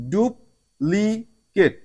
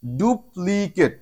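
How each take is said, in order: First: duplicate stretched very slowly, each syllable apart; duplicate spelled out in slow motion; slower demo word. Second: Very slow, careful teacher's pronunciation; slow classroom model of the word; slow demo word. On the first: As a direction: say duplicate even slower for the class. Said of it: "ইউ থেকে আমরা রস্যকারের উচ্চারণ পেয়েছি". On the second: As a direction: draw the word out syllable by syllable. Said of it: "এরপরে আমাদের next word". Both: Shown as a demonstration.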